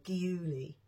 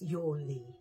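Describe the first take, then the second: First: The word begins with a G sound. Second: The word begins with a Y sound. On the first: The speaker calls it wrong. "a lot of people say Giuli or Giuli, but it's not" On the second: The speaker calls it right. "it's Yawley"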